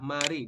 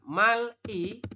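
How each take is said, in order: First: The consonant links into i as an R. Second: A final L sound is followed by separate i. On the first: The speaker calls it right. "tapi dibacanya adalah mari" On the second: The speaker calls it wrong. "Jadi Anda membacanya bukan mal-i"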